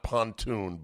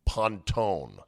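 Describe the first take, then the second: First: The name ends with a "toon" sound. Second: The name ends with a "tone" sound. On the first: The speaker calls it wrong. "not pontoon" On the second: The speaker calls it right. "but Pontone"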